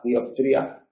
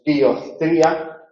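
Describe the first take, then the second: First: "dioptría" with a soft, relaxed p. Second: "dioptría" with the p said like z, slowly; wrong theta. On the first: Teacher models the relaxed, correct "dioptría". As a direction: ease the p of "dioptría". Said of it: "pronunciarla relajada". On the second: Teacher demonstrates the wrong "dioptría". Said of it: "No es dioptría". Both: Shown as a demonstration.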